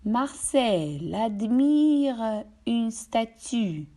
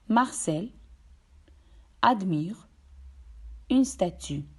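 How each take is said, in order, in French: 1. Les consonnes finales se lient aux voyelles suivantes. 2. Les mots sont prononcés séparément, sans liaison. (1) "dans une phrase, on voit l'enchaînement" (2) "Comparez encore une fois"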